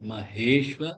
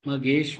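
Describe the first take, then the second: First: The h sound is strongly breathed from the throat. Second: The h sound is weak and barely breathed. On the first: The speaker calls it right. "ஹே தொண்டையிலேருந்து வரணும்" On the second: The speaker calls it wrong. "மகேஸ்வ இல்ல"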